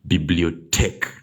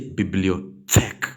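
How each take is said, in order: First: The middle consonant is a plain t sound. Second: The middle consonant is a soft th sound. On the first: The speaker calls it right. "T H now becomes a T" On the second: The speaker calls it wrong. "don't say"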